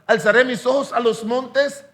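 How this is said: It is said as a question.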